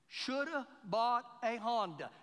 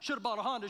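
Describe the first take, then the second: First: It is said at a normal speed. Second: It is said very fast.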